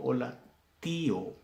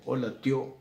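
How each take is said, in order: First: "tío" in "hola tío" as TÍ-o; hiatus in tío. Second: "tío" in "hola tío" run together as TYÓ; diphthong mispronunciation. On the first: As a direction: pause after hola, then a long stressed í in "tío". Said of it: "digo hola tío". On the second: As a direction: say hola tyó in one beat. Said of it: "no digo". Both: Shown as a demonstration.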